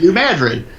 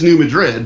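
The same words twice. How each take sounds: First: It is pronounced the local Missouri way. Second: It is pronounced the standard, expected way. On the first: This is how the locals say it. "But we say New Madrid" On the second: This is how outsiders expect it to sound. "which you know is New Madrid, probably"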